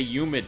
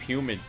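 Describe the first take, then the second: First: The word starts without an h sound. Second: The word starts with an h sound. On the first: "they say humid" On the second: "instead of humid"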